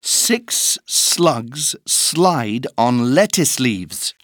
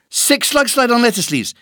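First: It is said at a slow pace. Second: It is said at a very fast pace.

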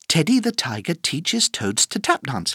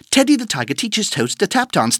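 First: The sentence is said at a fast speed. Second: The sentence is said at a very fast speed. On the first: "plus vite" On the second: "Encore plus vite"

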